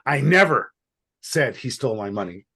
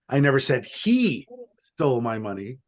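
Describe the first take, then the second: First: The stress is on "never". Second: The stress is on "he".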